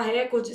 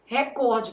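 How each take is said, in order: First: "recorde" com força no RE, como o povo fala; pronúncia popular de recorde. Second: "Recorde" com tônica no COR; pronúncia correta de recorde. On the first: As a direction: diga "recorde" como RÉcorde, tônica na primeira sílaba. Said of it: "Deixa o povo falar recorde". ("recorde" proparoxítono, RÉ-cor-de) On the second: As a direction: diga "Recorde" como reCÓRde, paroxítona. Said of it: "o certo é o quê?". ("Recorde" com força na penúltima sílaba) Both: Shown as a demonstration.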